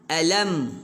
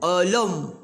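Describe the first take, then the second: First: The vowel sounds plain, with a normal mouth. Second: The vowel sounds rounded, with pouted lips. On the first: The speaker calls it right. "buka mulut. Alam. Ha, begitu" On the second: The speaker calls it wrong. "Kalau muncung, alam. Muncung"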